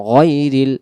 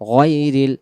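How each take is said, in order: The two takes are said the same way.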